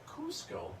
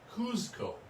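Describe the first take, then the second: First: The middle consonant is an s sound. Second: The middle consonant is a z sound. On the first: This is the current form of the name. "it is now spelled C U S C O, and it's Cusco" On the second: This is the older form of the name. "it used to be spelled C U Z C O"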